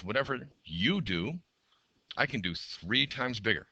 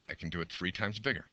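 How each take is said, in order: First: High, slow, bold machine boast; a proud machine talking, drawn out. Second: Said in the usual way. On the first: Acted. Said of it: "The other machine says". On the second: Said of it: "That's what that says".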